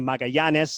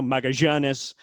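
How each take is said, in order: First: The double L is said as in Costa Rica. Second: The double L has a 'zh'-like sound. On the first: "as you might say in Costa Rica" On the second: "the double L in, in Argentina is that je sound"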